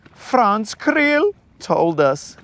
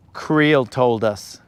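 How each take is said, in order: First: Put-on higher, drawn-out accented planner voice; hammed-up foreign wedding planner; Franz. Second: Said in the usual way. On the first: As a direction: stretch it slowly in a put-on high accent. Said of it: "Creel is Franz".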